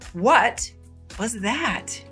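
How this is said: The question sounds polite and asks for a repeat. The speaker wants the other person to repeat themselves. "You can politely ask someone to repeat themselves"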